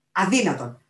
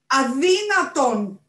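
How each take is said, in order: First: Loud, outraged exclamation; outraged refusal. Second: Drawn-out high howl of outrage. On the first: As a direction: refuse out loud, before the full howl. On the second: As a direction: bellow it slowly, high and loud. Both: A narrator's reading. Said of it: "ούριαξε ο Οράτιος Μπατ".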